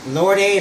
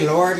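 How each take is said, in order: First: The name is said as two syllables, Lord-ay. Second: The name is said as one syllable, Lord. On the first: The speaker calls it wrong. "I say Lord A" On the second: The speaker calls it right. "pronounce it Lord"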